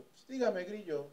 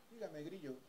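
First: A hint of Mexico City swagger; Grillo's answer. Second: Much softer, deadpan repeat of the nickname; repeated flat answer. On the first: Bodyguard answering his job interview, lightly voiced. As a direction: toss the nickname off casually. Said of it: "con su acento del D F". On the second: Retold or imitated. Bodyguard repeating his nickname, soft deadpan. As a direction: say it again, unbothered.

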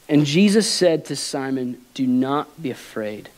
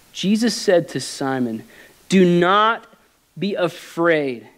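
First: Said in the usual way. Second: Preacher reads it again, stressing "Do not" for the congregation; emphatic reread. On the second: Shown as a demonstration. Slow, weighty "Do not be afraid" with a punched "Do not". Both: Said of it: "Let me read that again".

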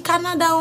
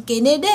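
First: «Canada» à la française, «ka-na-da», syllabes égales; prononciation française. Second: «Canada» dit à l'anglaise, «kéneda», accent sur la deuxième syllabe; prononciation anglaise. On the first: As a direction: dire «Canada» en français, «ka-na-da», sans accent anglais. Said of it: "se prononce comme, on dit Canada". («Canada» prononcé à la française, «ka-na-da») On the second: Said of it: "se prononce comme". («Canada» prononcé «kéneda» à l'anglaise) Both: Shown as a demonstration.

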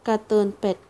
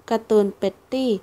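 First: การ์ตูนเป็ด cut short as a slip, เป็ด said flatly; การ์ตูนเป็ด read as a mistaken first try; misread word. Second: การ์ตูนเป็ตตี้ said in full with a rising end; careful corrected การ์ตูนเป็ตตี้; corrected reading. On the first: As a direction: stumble on การ์ตูนเป็ด before correcting. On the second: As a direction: fix it to การ์ตูนเป็ตตี้, tune rising. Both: Real, not acted.

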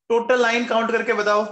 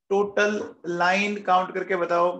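First: Fast, louder question to the class; first quick call to the class, fast and loud; quick, loud prompt. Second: Said in the usual way. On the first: Shown as a demonstration. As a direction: rattle it off briskly to wake the class.

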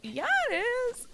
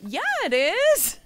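First: Much higher squeaky first-grader retort; very high kid voice "Yeah, it is!"; little girl. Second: Put-on high, loud, drawn-out little girl retort; higher, louder kid yell "Yeah, it is!". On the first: Retold or imitated. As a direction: chirp it like a tiny kid insisting. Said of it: "She's like". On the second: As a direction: shout back like a stubborn first grader. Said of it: "And this little girl goes".

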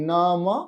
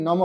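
First: "নমঃ" slowly as naa-ma, then a separate ha; visarga as h. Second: "নম" short, with no h at the end; as written. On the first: Teacher showing the visarga becomes h, slow careful pronunciation. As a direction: finish "নমঃ" on a sounded ha. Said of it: "বিসর্গটা". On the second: Teacher reading the written word, pronunciation without visarga. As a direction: say "নম" quickly and leave off the breath. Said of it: "যেটা রয়েছে নম". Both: Shown as a demonstration.

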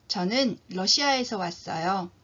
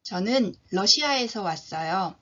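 Both takes have the same delivery.

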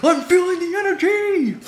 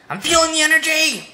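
First: Even higher and giddier; more hyped. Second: High, loud buzzing energy; hyped up. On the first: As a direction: ride the rush even harder. Repeated, higher still. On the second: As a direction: bounce with the rush. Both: Pretend.

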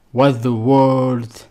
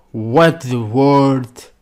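The two takes are said the same way.

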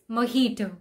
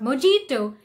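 First: Mojito with an H, mo-hee-to; correct mojito. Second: Mojito with hard J, mo-jee-to; mispronounced mojito; wrong mojito. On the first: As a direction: say mojito with an H sound. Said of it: "the J is actually silent". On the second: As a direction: sound the J in mojito as in jam. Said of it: "pronounce the J". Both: Shown as a demonstration.

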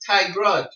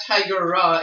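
First: Tigra in two syllables, loud and high; corrected pronunciation. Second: Tigera in three slow syllables, loud; rejected pronunciation. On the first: Showing friends the right cat name, Tigra in two syllables. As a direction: run g straight into r in Tigra. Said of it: "it's Tigra". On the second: Showing friends the wrong cat name, Tigera in three syllables. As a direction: add a vowel between g and r in Tigera. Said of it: "not Tigera". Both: Shown as a demonstration.

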